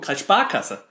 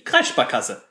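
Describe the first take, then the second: First: The stress is on the second syllable. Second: The stress is on the first syllable. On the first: "Also auf der zweiten Silbe betont" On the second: "weil es ist ja die Kreissparkasse"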